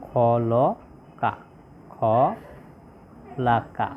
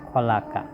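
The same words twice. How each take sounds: First: খলাকা stretched out very slowly, syllable by syllable, খ-লা-কা; slow syllable demo. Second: Said in the usual way. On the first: Shown as a demonstration. Teacher spelling out the word for students, very slow. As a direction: draw out খলাকা slowly so each syllable of খ লা কা is clear. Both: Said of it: "তাহলে কি হলো?".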